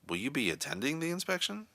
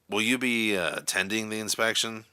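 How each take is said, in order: First: The question sounds insecure and doubtful. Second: The question sounds angry and irritated. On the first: "an insecure or doubtful tone" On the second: "in an angry, irritated tone of voice"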